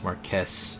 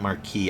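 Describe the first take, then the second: First: The word ends with an s sound. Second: The word ends without an s sound. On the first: The speaker calls it wrong. "I always read it as Marquess" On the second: The speaker calls it right. "I guess that word is pronounced Marquis"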